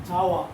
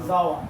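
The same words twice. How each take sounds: No difference in how they are said.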